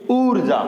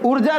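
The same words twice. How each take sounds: First: The first vowel is held long. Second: The first vowel is kept short. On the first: The speaker calls it right. "इसमें बड़ा ऊ आता है तो थोड़ा हमें यहां पर डबल मात्रा का समय लगाना चाहिए" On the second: The speaker calls it wrong. "ऊर्जा नहीं बोलना"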